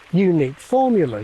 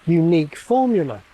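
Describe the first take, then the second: First: The first syllable of unique carries an accent. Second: The first syllable of unique has no accent. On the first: "put a pitch accent on a rhythmic beat on that first syllable" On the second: "it seems unaccentable"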